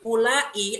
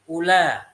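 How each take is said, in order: First: It is long, with a glottal stop before the end. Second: It is short, with no glottal stop at all. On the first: This is the form used in the Hijaz. "ulai ada hamzahnya. Ini namanya lughah yang pakai mat" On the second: This is the form used by the Tamim tribe. "menggunakan qasr, mereka menggunakan ula, nggak pakai hamzah"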